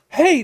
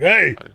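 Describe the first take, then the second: First: The voice is at a higher pitch. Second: The voice is at a much lower pitch. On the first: The speaker calls it wrong. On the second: The speaker calls it right.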